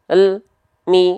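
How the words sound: The l sound stops with a break before mi. The speaker calls it wrong. "Gak boleh ... gak boleh ada jeda seperti itu"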